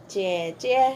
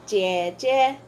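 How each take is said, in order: The two takes are said the same way.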